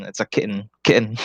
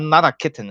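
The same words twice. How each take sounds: First: Soft "kitten" said as "kit'n"; Americanized "kitten". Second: High-pitched "kitten" with both vowels sounded; rejected Filipino-style "kitten", second vowel clear; fully pronounced "kitten". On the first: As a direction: swallow the second vowel of "kitten", American style. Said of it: "when I talk with them, I say". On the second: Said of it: "no, not, not, not a kitten". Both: Shown as a demonstration.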